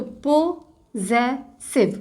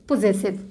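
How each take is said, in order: First: possessive stretched out very slowly, syllable by syllable; very slow sounding out. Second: Said in the usual way. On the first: Shown as a demonstration. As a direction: draw out possessive for the class. (Possessive को बहुत धीरे खींचकर बोलें) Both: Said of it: "word create करें जेस का".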